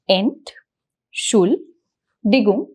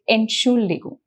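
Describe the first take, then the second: First: The word is split into separate slow syllables. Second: The word is said quickly as one unit. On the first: "break down the syllables" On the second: "repeat them faster"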